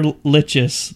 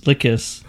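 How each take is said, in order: First: "Lichus" with a CH sound; alternative pronunciation. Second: "Lickus" with a hard K; alternative pronunciation. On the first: Guessing at an unfamiliar beer name, "Lichus" said with a CH. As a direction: say "Lichus" with ch as in itch. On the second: Second guess at the beer name, "Lickus" said with a hard K. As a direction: say "Lickus" as in lick. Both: Shown as a demonstration. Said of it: "I don't know what that is. It says".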